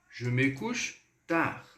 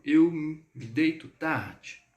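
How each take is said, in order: First: "Je me couche tard" in careful, slow French; slow French model. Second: "eu me deito tarde" said slowly; slow example. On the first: (francês lento e claro) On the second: (exemplo dito devagar) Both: Shown as a demonstration. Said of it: "por exemplo".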